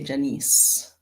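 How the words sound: The name is said with a Caribbean pronunciation. "in the Caribbean, we say Janice"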